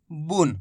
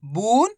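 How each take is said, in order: First: बुन short and lower, u not stretched; short quick vowel. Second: बून with a long, drawn-out u rising in pitch; long vowel. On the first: Teacher contrasting two readings for pupils, बुन cut short. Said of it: "तेजी के साथ उच्चारण करना है". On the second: Teacher contrasting two readings for pupils, बून held long. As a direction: stretch the u in बून and lift it. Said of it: "दो कितना फर्क है". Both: Shown as a demonstration.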